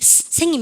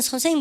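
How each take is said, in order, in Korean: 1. 첫 s 소리는 길고 쉭쉭거리는 s예요. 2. 첫 s 소리는 평범한 한국식 s예요. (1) "이렇게 안 하지 않습니까" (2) "우리가 선생님 그러지"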